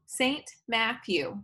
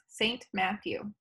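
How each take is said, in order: First: Saint Matthew spoken slowly, one beat per syllable; counting beats. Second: Saint Matthew said slowly and evenly, each syllable set apart; counting beats. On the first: Teacher to class, counting each syllable slowly. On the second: Teacher repeats the title for the class, syllable by syllable. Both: Shown as a demonstration. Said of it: "that's three beats".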